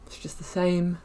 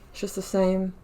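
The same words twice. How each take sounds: The two takes are said the same way.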